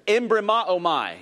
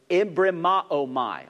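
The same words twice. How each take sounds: First: "Embrimaomai" said in full, firm and a bit louder; Greek word, said firmly. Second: "embrimaomai" said slowly, syllable by syllable: em-bri-ma-o-mai; Greek word, slowly. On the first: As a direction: lead the crowd with a clear "Embrimaomai". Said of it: "If I gotta say it, you're gonna say it". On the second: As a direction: spell out "embrimaomai" slowly so they can copy it. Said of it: "I want you to say that with me". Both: Shown as a demonstration.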